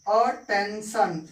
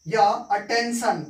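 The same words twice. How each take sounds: First: attention drawn out slowly, a-ten-shan; slow demo word. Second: Said in the usual way. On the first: Shown as a demonstration. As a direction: model attention slowly for students to copy. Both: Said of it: "एक example हम देखते हैं".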